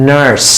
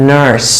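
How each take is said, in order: Both takes have the same delivery.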